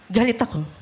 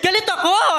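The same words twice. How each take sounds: First: The voice sounds sarcastic. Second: The voice sounds happy. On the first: "yung galit ako ng sarcastic?" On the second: "yung galit ako ng masaya?"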